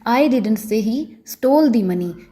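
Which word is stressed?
stole. The word 'stole' carries the stress. The money may have been taken without stealing. "अगर मैं stall पर stress डालकर बोलूँगी"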